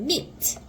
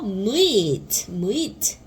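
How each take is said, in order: First: "meet" as one quick syllable, mit; said quickly. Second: "meet" drawn out as mu-it; sounded-out blending. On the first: Teacher shows learners the blended word, "meet" said quickly. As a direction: run the sounds of "meet" together fast. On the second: Teacher blends the m sound for learners, "meet" sounded out slowly. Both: Shown as a demonstration. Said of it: "빨리 하면 meet".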